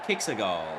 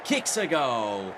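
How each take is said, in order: First: The voice sounds only a little excited. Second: The voice sounds moderately excited. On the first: "mildly excited" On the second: "slightly excited"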